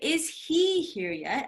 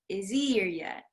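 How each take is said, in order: First: The h sound in 'he' is pronounced. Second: The h sound in 'he' is dropped. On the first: The speaker calls it wrong. "So I don't say" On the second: The speaker calls it right. "you actually don't pronounce that H"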